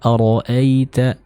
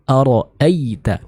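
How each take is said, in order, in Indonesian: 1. Bunyi 'ay' mengalir lembut tanpa tekanan. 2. Bunyi 'ay' ditekan dan menebal. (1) "yang kita baca adalah dialirkan dengan lembut" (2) "Jadi bukan ara'aita. Nah, ini kurang tepat"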